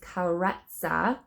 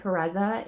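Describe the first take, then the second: First: The middle consonant is a ts sound. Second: The middle consonant is a plain z sound. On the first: The speaker calls it right. "but it is Karetsa" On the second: The speaker calls it wrong. "I've been saying Kareza, ... I am saying it wrong"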